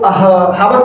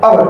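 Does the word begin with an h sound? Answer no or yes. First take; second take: yes; no. First: The word starts with an h sound. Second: The word starts with a vowel sound. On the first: The speaker calls it wrong. "हावर को हावर पढ़ते नहीं है" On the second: The speaker calls it right. "इसका सही pronunciation है अवर"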